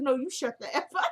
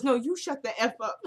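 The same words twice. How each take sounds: First: Giggling through the quote; laughing. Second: Said in the usual way. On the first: Real, not acted. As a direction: crack up while repeating it. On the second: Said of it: "He goes".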